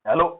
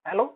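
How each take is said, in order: First: The voice comes out clear and steady. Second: The voice comes out weak and choked. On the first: The speaker has calmed down and cleared the throat. "फिर आराम से गला साफ करते हो" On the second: The speaker is nervous and the voice fails. "जैसी आवाज करते हो अंदर जाके आती है"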